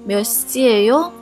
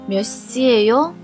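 The two takes are said the same way.

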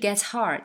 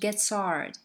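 First: The h in hard is clearly pronounced. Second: The h in hard is nearly dropped. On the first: The speaker calls it wrong. "它不是gets hard" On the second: The speaker calls it right. "它是gets hard，这个h 它有点像被略掉了"

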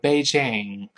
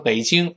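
First: It is said with English pronunciation. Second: It is said with Mandarin pronunciation. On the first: "他说Beijing" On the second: "老外不说北京"

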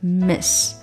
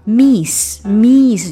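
First: The vowel is a short i sound. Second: The vowel is a long ee sound. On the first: The speaker calls it right. "它是I 的短音是i" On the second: The speaker calls it wrong. "千万不要把它说成miss 就错了，它就变成那个long e 上去了"

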